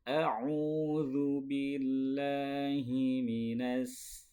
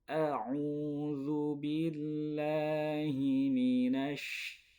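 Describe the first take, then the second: First: The word ends with a plain s sound. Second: The word ends with an sh sound. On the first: The speaker calls it wrong. "itu sin. Ujung lidah bertemu dengan ujung gigi seri bawah" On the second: The speaker calls it right. "yang betul"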